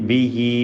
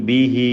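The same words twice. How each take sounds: Both takes have the same delivery.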